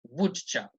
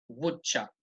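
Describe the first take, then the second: First: The first syllable is strongly stressed. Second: The first syllable is strongly stressed.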